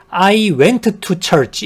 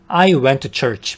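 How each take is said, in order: First: Both t sounds are pronounced strongly and separately. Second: The first t is dropped and the words link. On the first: The speaker calls it wrong. "이렇게 t를 두 번 더 세게 발음하진 않아요" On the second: The speaker calls it right. "바로 이렇게 연음해서 발음하시면 되세요"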